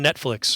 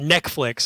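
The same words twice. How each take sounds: First: The word is pronounced in the usual way. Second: The word is pronounced in an altered, childlike way.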